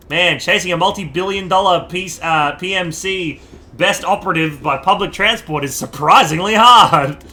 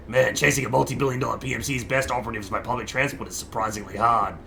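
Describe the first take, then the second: First: Wrong character voice. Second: Lower, softer, brisker redo in the proper voice; right character voice. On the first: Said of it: "That was the wrong voice". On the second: Player redoes the line in the intended character's voice. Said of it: "Sorry, that was the wrong guy". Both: Acted.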